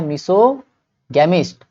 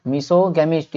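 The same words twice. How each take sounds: First: मिसोगेमिस्ट slowly, miso - gemist with a hard g; syllable-by-syllable. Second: Said in the usual way. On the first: Shown as a demonstration. Teacher asks and answers, मिसोगेमिस्ट slowly split in parts. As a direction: break मिसोगेमिस्ट after a long "so". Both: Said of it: "ये क्या है?".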